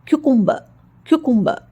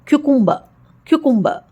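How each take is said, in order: No difference in how they are said.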